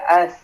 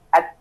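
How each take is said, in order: First: The final t is released as a hissing breath. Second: The final t is a firm stop at the palate. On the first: The speaker calls it wrong. "Yang penting napasnya keluar" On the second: The speaker calls it right. "Padahal dia ditaruh di atas"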